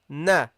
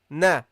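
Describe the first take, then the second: First: The vowel is said with an open mouth. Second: The vowel is said with an open mouth.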